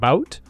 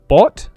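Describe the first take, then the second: First: The vowel glides like the ow sound. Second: The vowel is a plain short o sound. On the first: The speaker calls it wrong. "a slight mispronunciation ... he says it like bout" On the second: The speaker calls it right. "the word bot"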